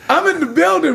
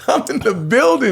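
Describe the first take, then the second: First: Hyped catchphrase. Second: Proud, raised announcement of arrival; triumphant. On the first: DJ repeating his arrival line to the host, hyped. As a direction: announce it like a hype man. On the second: DJ proudly telling the host he made it, triumphant. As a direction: declare it like a victory. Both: Retold or imitated.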